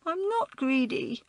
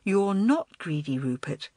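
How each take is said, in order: First: Put-on high, wailing little-boy voice. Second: Calm, gentle reassurance. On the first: Small boy denies being greedy to older girl, wailing. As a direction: wail it in childish protest. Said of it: "he wailed". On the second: Girl comforts tearful small boy, reassuring. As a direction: reassure a small child, voice settling. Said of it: "gently placed an arm round his shoulders". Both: A narrator's reading.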